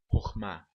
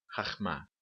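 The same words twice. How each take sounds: First: "Horma" with an "o" in the first syllable. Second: "rachma" said as khakh-MA, with "ah" in the first syllable; wrong A vowel. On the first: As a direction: pronounce "Horma" as khor-MA, not khar-MA. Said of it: "mas um kametz hatuf". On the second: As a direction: demonstrate the mistaken "rachma" with "a" in both syllables. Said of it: "e não rachma". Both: Shown as a demonstration.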